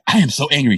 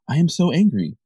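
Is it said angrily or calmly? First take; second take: angrily; calmly. First: It is said loudly, with open anger. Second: It is said calmly, with restrained anger.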